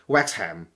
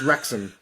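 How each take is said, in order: First: The word begins with a w sound. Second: The word begins with an r sound. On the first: The speaker calls it wrong. "if you're a Cantonese, you're probably gonna pronounce it as Wexham" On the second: The speaker calls it right. "it's pronounced as Wrexham"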